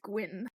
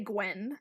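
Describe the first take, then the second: First: The name's vowel sounds like 'bin'. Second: The name's vowel sounds like 'bed'. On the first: The speaker calls it right. "but I know it's Gwyn" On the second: The speaker calls it wrong. "I instinctually say Gwen"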